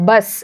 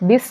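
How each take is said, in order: First: It starts with the plain sound 'buh'. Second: It starts with the letter name 'bee'. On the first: The speaker calls it right. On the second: The speaker calls it wrong. "ബിസ് എന്നല്ല പറയുന്നത്"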